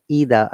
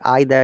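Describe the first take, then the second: First: It is said with an American pronunciation. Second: It is said with a British pronunciation. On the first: "Either is an American I P A" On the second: "either is the British I P A"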